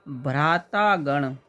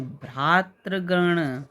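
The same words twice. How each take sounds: First: भ्रातागण with long "taa" before "gan"; wrong compound form. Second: भ्रातृगण slowly, with "tri/tra" before "gan"; correct compound form. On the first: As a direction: say भ्रातागण with an open aa. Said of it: "भ्रातागण नहीं". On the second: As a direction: draw out भ्रातृगण syllable by syllable. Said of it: "देखिए कैसे लिखेंगे". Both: Shown as a demonstration.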